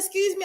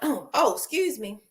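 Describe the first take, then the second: First: It is said in a nicer, polite tone. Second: It is said in a rude, curt tone.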